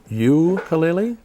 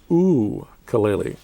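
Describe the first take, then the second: First: The first vowel is said like "you". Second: The first vowel is said like "oo". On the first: The speaker calls it wrong. "you're going to want to pronounce the first U as a hard U" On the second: The speaker calls it right. "No, it's ukulele. Think of that first U as ... two O's"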